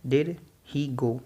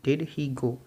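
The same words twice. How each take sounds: First: Very slow, each word spelled out; slow drill. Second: Said in the usual way. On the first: Shown as a demonstration. Teacher slowly modelling a question for students. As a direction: drag it out word by word for learners. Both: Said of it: "fast बोलना है इसको".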